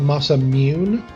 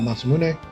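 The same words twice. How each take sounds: First: A Y sound is added in the word. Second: The final E is clearly pronounced. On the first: "They add a Y" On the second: "the proper pronounce pronunciation, the E"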